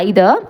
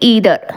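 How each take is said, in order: First: The word begins with an 'eye' sound. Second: The word begins with an 'ee' sound. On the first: This is the British way of saying it. "British English படி" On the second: This is the American way of saying it. "American English படி"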